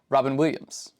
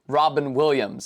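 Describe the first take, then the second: First: It sounds run together like a single word. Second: It sounds like a first name and a last name. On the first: It is treated as one single name. The speaker calls it wrong. "and not Robin Williams" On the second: It is a first name followed by a last name. The speaker calls it right. "in the same way that I say Robin Williams"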